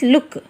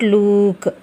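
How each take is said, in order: First: The vowel is short and quick. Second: The vowel is drawn out long. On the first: The speaker calls it right. "This is look" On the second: The speaker calls it wrong. "This is not look"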